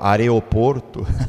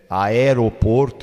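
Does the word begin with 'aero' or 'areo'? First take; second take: areo; aero. First: The word begins with the sounds 'areo'. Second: The word begins with the sounds 'aero'. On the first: The speaker calls it wrong. "eu digo are" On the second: The speaker calls it right. "ao invés de dizer é, aeroporto"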